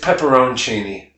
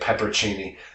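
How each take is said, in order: First: The word is said with the middle 'on' syllable. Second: The word is said without the middle 'on' syllable. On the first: The speaker calls it right. "It's pepperoncini" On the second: The speaker calls it wrong. "you're probably pronouncing it peppercini"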